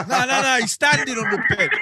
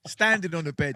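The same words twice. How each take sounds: First: Laughing correction. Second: Said in the usual way. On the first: Real, not acted.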